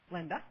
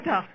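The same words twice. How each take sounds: First: It is said quietly, without energy. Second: It is said loudly, with energy.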